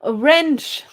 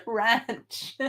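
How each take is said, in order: First: "wrench" said with the short e of "wrench"; saying wrench. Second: "Ranch" said with the broad a of "ranch"; saying ranch. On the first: Streamer reading out the word wrench from chat, short e. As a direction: read out "wrench" as the viewer typed it. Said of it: "you were talking about the blue wrench". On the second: Streamer saying ranch, which autocorrect turned into wrench, broad a. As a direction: turn "Ranch" into the horse-farm word. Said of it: "a ranch with horses". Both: Shown as a demonstration.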